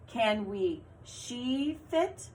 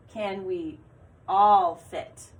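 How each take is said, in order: First: Slow, testing "she" in the blank; slow trial read. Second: "all" punched much louder; stress on all. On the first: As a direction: read it out slowly to check if it fits. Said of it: "That didn't make sense". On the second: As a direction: land hard on "all". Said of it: "That one made sense". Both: Shown as a demonstration.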